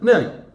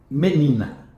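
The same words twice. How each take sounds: First: The word is said very quickly and compressed. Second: The word is said at a normal, unhurried speed. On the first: "Eu começo da velocidade da palavra menina" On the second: "Fórmula da língua portuguesa"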